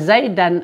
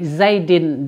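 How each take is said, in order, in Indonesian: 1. Kata ini diakhiri dengan vokal a. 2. Kata ini diakhiri dengan vokal i. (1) "begitu juga zaidan" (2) "kita jarkan menjadi zaidin"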